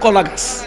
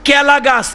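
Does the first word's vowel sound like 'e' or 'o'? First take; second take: o; e. First: The first vowel sounds like 'o', standard style. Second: The first vowel sounds like 'e', regional style. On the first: This is the standard form. "আপনারা বলেন কলা গাছ" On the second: This is the local dialect form. "কেলা গাছ বলি আঞ্চলিক ভাষা"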